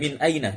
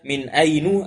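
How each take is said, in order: First: The second word ends in an a vowel. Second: The second word ends in a u vowel. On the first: The speaker calls it right. "sehingga bentuknya demikian" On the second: The speaker calls it wrong. "tidak ada dibaca min ainu"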